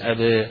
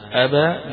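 First: The final vowel lies between open a and e. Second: The final vowel is a fully open a. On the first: "ولكن بين الاثنين" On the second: "بالفتح"

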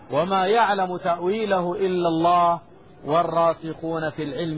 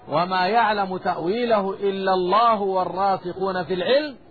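First: There is a pause after the word 'Allah'. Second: There is no pause after the word 'Allah'. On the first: Only God knows its interpretation. "قراءتي الوقف" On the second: Those firm in knowledge also know its interpretation. "والوصل"

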